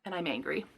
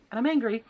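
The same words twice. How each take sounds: First: Softer, muttered under the breath; quiet grumbled I'm angry; muttered anger. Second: Angry repeated with more force; stressing angry with real irritation; louder anger. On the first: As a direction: say it to yourself, simmering. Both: Real, not acted. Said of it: "It made me so mad".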